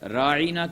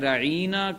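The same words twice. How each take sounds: First: The word is said short and clipped. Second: The word is said loosely and drawn out. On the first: Please attend to us. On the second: It means shepherd.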